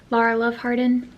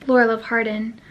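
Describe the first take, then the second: First: Lara said as LAR-uh, with an open "ah" sound; corrected name. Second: Laura said as LOR-uh, with an "or" sound; first guess at the name. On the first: Correcting the author's name, Lara said as LAR-uh. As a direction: say Lara as LAR-uh, Love Hardin plainly. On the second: Unsure of the author's name, Laura said as LOR-uh. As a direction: say Laura as LOR-uh, Love Hardin plainly. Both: Shown as a demonstration. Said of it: "I'm not sure how she says her name".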